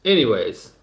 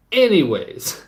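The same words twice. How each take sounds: First: Said in the usual way. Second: Higher and louder, pushing back in; emphatic restart. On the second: Real, not acted. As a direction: reclaim the floor loudly.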